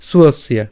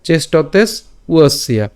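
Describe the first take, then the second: First: "সুয়সিয়া" as one word with s leading; joined pronunciation. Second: "চেষ্টতেস" rising, pause, "উয়সিয়া" falling; split pronunciation. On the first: Teacher contrasting the target form, joined "সুয়সিয়া". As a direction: glide from s into w in "সুয়সিয়া". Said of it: "সুয়সিয়া উচ্চারণ করার চেষ্টা করবেন". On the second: Teacher repeating the beginners' version, split "চেষ্টতেস উয়সিয়া". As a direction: break between "চেষ্টতেস" and "উয়সিয়া". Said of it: "প্রথম প্রথম". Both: Shown as a demonstration.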